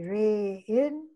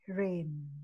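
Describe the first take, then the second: First: The two vowel letters are sounded separately. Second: The vowel is a single long a sound. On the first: The speaker calls it wrong. "you don't say rain" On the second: The speaker calls it right. "but you say rain"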